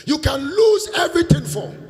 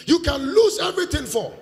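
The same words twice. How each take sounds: First: High, loud repeat for emphasis; emphatic. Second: Said in the usual way. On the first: Acted. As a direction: drive the point home loudly. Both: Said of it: "I'm telling you this".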